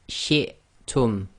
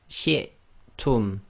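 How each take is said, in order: The two takes are said the same way.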